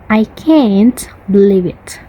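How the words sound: It is said in an American accent. "For the American, ... They emphasize nothing in American"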